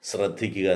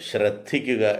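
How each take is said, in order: First: The word begins with an 'sr' sound. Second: The word begins with a 'shr' sound. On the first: The speaker calls it wrong. "എന്നാണ് പലരും പറയുന്നത്... കഷ്ടം, അങ്ങനെ പറയരുത്. ശ്ര സ്ര ഇത് രണ്ടും രണ്ടാണ്" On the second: The speaker calls it right. "ശ്ര"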